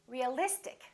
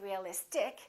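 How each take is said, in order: First: The stress falls on the syllable before -ic. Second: The stress falls away from the syllable before -ic. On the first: The speaker calls it right. "we stress the syllable immediately before the suffix" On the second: The speaker calls it wrong. "We don't say realistic"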